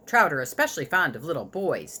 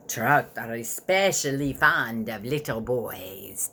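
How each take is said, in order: First: Said in the usual way. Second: Slow, low, breathy vampire whisper; evil vampire whisper. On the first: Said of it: "in his evil vampire voice". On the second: A narrator's reading. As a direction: hiss it slowly like a hungry vampire. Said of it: "Dad said in his evil vampire voice".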